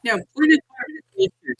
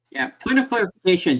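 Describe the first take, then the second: First: Much higher, silly squeaky pitch. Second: Said in the usual way. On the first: Pretend. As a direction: pipe it up high like a cartoon. First take, then repeated plainly.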